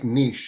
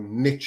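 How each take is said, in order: First: The word is said in a British way. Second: The word is said in an American way.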